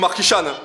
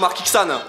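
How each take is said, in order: First: The middle consonant is a sh sound. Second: The middle consonant is a ks sound. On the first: The speaker calls it right. "Pareil pour le X de Markishan" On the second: The speaker calls it wrong. "C'est pas Markixan"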